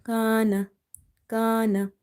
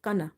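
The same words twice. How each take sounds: First: "Kana" with a long drawn first a; long madda alif. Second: "kana" said quickly with a short first a; wrong short kana. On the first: Teacher showing alif madda, long-vowelled "Kana". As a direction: stretch the first vowel of "Kana", short ending. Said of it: "This alif is madda here". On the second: Teacher showing what never to say, short-vowelled "kana". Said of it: "Never say it kana". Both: Shown as a demonstration.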